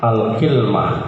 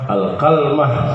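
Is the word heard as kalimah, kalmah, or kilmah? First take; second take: kilmah; kalmah. First: It has an i after k and no vowel after l. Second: It has an a after k and no vowel after l. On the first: "kafnya dikasal, lamnya disukun" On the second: "kafnya di fathah, lamnya disukun"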